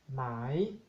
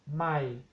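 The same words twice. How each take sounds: First: It is said on a rising tone. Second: It is said on a low tone. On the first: It means silk. "Tono creciente" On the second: It means new. "Tono bajo"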